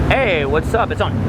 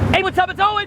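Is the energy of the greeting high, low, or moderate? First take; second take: low; high. First: The greeting is delivered with too little energy. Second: The greeting is delivered with too much energy. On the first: "one's too low" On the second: "One's too high"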